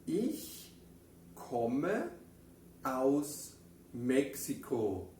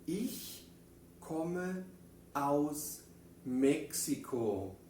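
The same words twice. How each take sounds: First: Ich komme aus México lento, con pausas; guía a la clase palabra por palabra; repetición en coro. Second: Ich komme aus México con pausas entre palabras; modelo en alemán. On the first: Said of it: "Vamos a decirlo una vez más juntos". (dilo juntos otra vez, despacio) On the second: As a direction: palabra por palabra, muy despacio. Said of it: "en alemán decimos". (frase modelo, pausada) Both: Shown as a demonstration.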